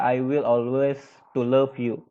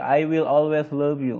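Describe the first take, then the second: First: I will always, pause, to love you as the faulty version; wrong form demo. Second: Said in the usual way. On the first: Shown as a demonstration. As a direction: say it as the mistake to avoid. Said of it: "Pakai to, nggak bisa". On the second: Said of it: "Nggak ada".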